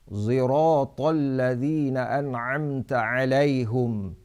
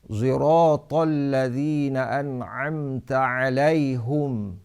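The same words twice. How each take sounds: The two takes are said the same way.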